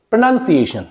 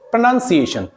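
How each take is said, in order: Both takes have the same delivery.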